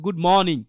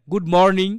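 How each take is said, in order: First: মর্নিং said as "mawning", no r; good মর্নিং with a long open vowel for the r; silent r. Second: মর্নিং with a pronounced r, "mor-ning"; good মর্নিং with a hard local r; common mispronunciation, r sounded. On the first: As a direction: drop the r in মর্নিং. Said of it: "practical learning আছে এখানে". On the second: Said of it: "আমরা কি বলি?". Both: Shown as a demonstration.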